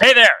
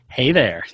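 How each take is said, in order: First: It is said in a plain, neutral way. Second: It is said in a sultry, sexy way.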